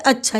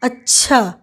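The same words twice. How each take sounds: First: The word is short, with very little force. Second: The word is longer, with somewhat more force. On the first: It signals acceptance or agreement. "ह्रस्व यानी कि बहुत कम बल दे करके" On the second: It signals opposition or protest. "दीर्घ में कहते हैं, यानी कि थोड़ा ज़्यादा बल देते हैं"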